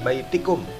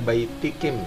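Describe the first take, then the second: First: The vowel after the k is u. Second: The vowel after the k is i. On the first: The speaker calls it right. "dhamir mutasilnya adalah kum" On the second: The speaker calls it wrong. "jangan dibaca baitikim, salah"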